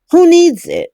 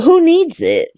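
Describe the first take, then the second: First: Higher and louder, fed-up repeat; exasperated. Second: Said in the usual way. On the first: Real, not acted. Recapping a soap, fed up with the plot, exasperated. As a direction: throw it out like an exasperated dismissal.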